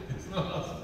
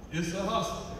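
Both takes have the same delivery.

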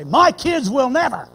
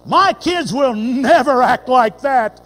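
First: Raised, insistent parent's vow; a loud "My kids will never" with stress on "my"; proud vow. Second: Slow, loud, indignant parent; a slow, loud "My kids will never act like that" with stress on "My"; proud vow. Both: Retold or imitated. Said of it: "the same tone of voice".

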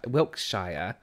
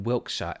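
First: "Wiltshire" with a full "shire" ending; American-style pronunciation. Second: Said in the usual way. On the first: Shown as a demonstration. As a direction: say "Wiltshire" ending in a drawn-out "shy-er". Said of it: "like how Americans put, would pronounce it". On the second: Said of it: "My brother says he is from".

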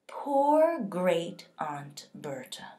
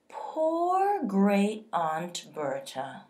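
First: Slow, whispered mock pity; officer sneers at the family, whispered and slow; condescending whisper. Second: Slow, drawn-out mock pity; officer mocks the dead aunt, slow and condescending. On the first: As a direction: breathe it out with contempt. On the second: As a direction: look down on her as you say it. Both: A narrator's reading. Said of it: "in a condescending voice".

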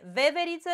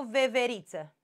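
First: "Veveriță" stressed on the first syllable VE. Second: "veveriță" stressed on RI. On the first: Teacher offers the first option, stress on the opening E. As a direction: hit VE at the start of "Veveriță". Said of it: "Pe E, veveriță". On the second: Teacher offers the other option, stress on the I. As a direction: move the stress of "veveriță" onto RI. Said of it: "Păi hai să vedem cum e". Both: Shown as a demonstration.

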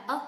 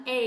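First: Short neutral "uh" for the article, written "ơ"; weak-form "a". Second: Full diphthong "ay" on the article "A"; strong-form "A". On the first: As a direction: say "ơ" as a schwa, "uh". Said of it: "cách đọc thứ hai là ơ". (đọc "ơ" như âm ngắn của mạo từ "a") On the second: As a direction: say "A" as the letter name, "ay". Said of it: "hay cách đọc thứ hai". (đọc "A" thành âm "ây") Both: Shown as a demonstration.

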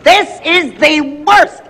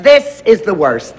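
First: Higher, slow, theatrical wail; dramatic despair. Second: Said in the usual way. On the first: Acted. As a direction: moan it like a tragedy. Repeated for dramatic effect.

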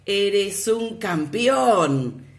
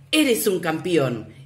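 First: Loud, very slow echo from far; the echo returning the father's praise. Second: Loud and slow call to the mountain; father shouting praise to the mountain; shouted praise. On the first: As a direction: stretch it like a mountain echo. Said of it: "la voz le respondió". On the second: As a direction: call it out slowly. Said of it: "Volvió a gritar". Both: A narrator's reading.

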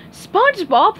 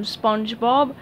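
First: High, loud call of the name SpongeBob; yelled. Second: Said in the usual way. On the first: Acted. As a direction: shout SpongeBob across the crowd. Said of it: "yelled Sandy". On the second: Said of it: "said Larry".

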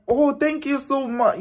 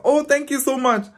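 First: High, sweet, polite thank-you; a sugary high thank-you to a stranger. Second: High, sweet, polite thank-you again; a sugary high thank-you to a stranger. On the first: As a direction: play it overly gracious and high. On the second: Polite reply repeated. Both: Retold or imitated.

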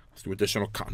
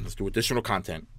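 First: Soft, breathy sigh through the words; sighing reluctance. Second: Said in the usual way. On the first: Real, not acted. Gamer reluctantly picking more content, sighing. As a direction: drag yourself into it.

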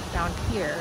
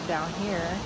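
The two takes are said the same way.

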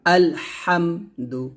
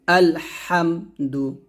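First: আলহামদু with the mim hummed long through the nose; sung, the common wrong way of saying আলহামদু; nasal humming on mim. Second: আলহামদু with a short, clean mim; the correct way of reciting আলহামদু; clear mim. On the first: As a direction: drag the মিম in আলহামদু into a nasal hum. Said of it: "অনেকে বলি আলহামদু, এরকমভাবে মিমে গুণনা করি". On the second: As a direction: say আলহামদু crisply with no hum on the mim. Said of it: "স্পষ্ট করে পড়তে হবে". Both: Shown as a demonstration.

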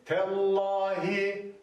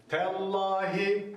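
First: "Tellahi" very slow, thin T, thick L; correct recitation. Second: "Tellahi" slow, thin T, thick L; correct recitation. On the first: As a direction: recite "Tellahi" slowly, T light, lam heavy. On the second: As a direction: repeat "Tellahi", lam heavy. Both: Shown as a demonstration. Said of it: "Lam kalın farkındaysanız".

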